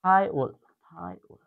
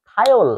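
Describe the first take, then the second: First: থায়োল, থায়োল drawn out slowly; slow drill of থায়োল; slow repeat. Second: থায়োল said clearly, stressed; teacher models থায়োল; pronunciation demo. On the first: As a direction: stretch each থায়োল for the class. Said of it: "এটার উচ্চারণ হবে থায়োল". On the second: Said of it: "এটার উচ্চারণ হবে". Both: Shown as a demonstration.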